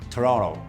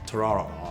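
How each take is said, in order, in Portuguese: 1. O segundo T é omitido. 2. O segundo T é omitido.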